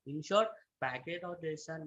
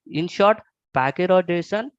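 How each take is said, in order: First: Very soft, hard to hear; speaking too quietly; barely audible. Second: Clearly louder, projecting to be heard. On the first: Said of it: "your voice is very low". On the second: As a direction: speak up for the room. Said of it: "is it better now". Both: Real, not acted.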